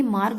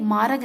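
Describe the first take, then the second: First: Said in the usual way. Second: मार्ग said "maarag", split into two syllables; extra vowel. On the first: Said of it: "मार्ग होता है". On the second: Shown as a demonstration. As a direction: slip an A between R and G in मार्ग. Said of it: "नहीं मार्ग होता है".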